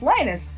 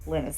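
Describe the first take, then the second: First: The first syllable sounds like 'line'. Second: The first syllable sounds like 'lin'. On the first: The speaker calls it wrong. "Linus Tech Tips. No, that's not what it is" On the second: The speaker calls it right. "like linseed oil"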